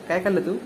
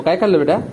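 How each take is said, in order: First: Said in the usual way. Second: काय खाल्लं बेटा asked with a louder push; loud prompt to a toddler; louder, coaxing. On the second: Shown as a demonstration. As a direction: say it louder to show the child. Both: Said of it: "जोरात बोल मग".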